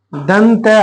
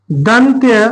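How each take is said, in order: First: दंत said short with no final vowel; teacher drops the ending, clipped दंत as a warning; wrong form dant. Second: दंत्य said in full with the final या sound; teacher models दंत्य clearly, ending on a light a; correct form dantya. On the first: Teacher warns pupils against writing दंत, short dant. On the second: Teacher shows pupils the right word, दंत्य carefully pronounced. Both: Shown as a demonstration. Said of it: "अब यहाँ पे दंत नहीं लिख देना".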